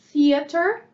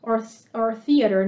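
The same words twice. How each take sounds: First: "theater" said quickly with a rise; British-leaning theater. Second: American theater. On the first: Teacher to Brazilian students, a first theater take. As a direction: say "theater" lightly, the less American take. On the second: Teacher to Brazilian students, American theater pronunciation. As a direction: give "theater" the Americanized sound. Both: Shown as a demonstration. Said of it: "uma pronúncia mais americanizada".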